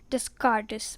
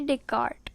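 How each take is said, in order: First: The name is pronounced letter by letter, as spelled. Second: The name is not pronounced the way it's spelled. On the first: The speaker calls it wrong. "if you see the spelling and then you will, if you pronounce, it will become like Rene, Rene Descartes, but it is not Descartes" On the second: The speaker calls it right. "it is Rene Descartes"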